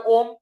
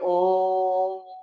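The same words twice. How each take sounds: First: The vowel is short and plain. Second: The vowel is drawn out long. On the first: The speaker calls it wrong. "ओम सीधा बोलने का ओम कोई benefit नहीं है" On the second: The speaker calls it right. "तो बोलिए ओम"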